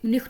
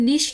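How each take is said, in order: First: The ch is said as a harsh kh sound. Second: The ch is said as a soft sh sound. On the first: This is how a small regional minority says it. "Five percent ऐसे हैं कि वो निख्ट भी निख्ट बोलते हैं" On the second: This is how most speakers say it. "Ninety five percent निश्ट ही बोलते हैं"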